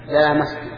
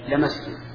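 First: The first vowel is drawn out long. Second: The first vowel is short. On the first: "بالمد" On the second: "بحذف المد"

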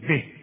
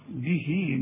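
First: The word ends short, with no vowel after the ha. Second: The word ends with a long ee vowel. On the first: The reciter stops on this word. "إذا وقفت على دي تقول به" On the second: The reciter joins it to the next word. "إذا وصلت"

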